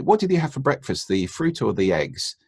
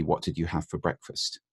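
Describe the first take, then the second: First: "What did you have for breakfast, the fruit or the eggs?" with a high start on What; steering either-or question. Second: "What did you have for breakfast?" asked open and softer, no options; open clean question. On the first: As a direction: offer two options, leading the listener. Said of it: "That's not a clean question". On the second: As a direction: ask it neutrally, no steering. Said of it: "the clean question would be". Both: Shown as a demonstration.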